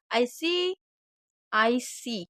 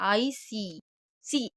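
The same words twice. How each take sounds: First: "I see" with the ee of "see" held long. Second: "I see, see" with the ee of "see" clipped short; short wrong see. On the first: Teacher models "see" with a long ee for students. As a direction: stretch the double e in "see" so it lasts. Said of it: "उसको थोड़ा long बोलते हैं". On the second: Teacher shows students the wrong short "see". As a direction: say "see" with a quick short vowel, the way not to say it. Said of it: "ऐसे नहीं बोलना". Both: Shown as a demonstration.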